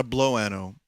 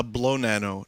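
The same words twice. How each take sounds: First: "blow ano" said as blow, then A-no with no n sound; wrong pronunciation. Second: "blow nano" said as blow, then NA-no with an n sound; correct pronunciation. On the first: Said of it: "he called it a blow nano". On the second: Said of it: "not a blow ano". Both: Shown as a demonstration.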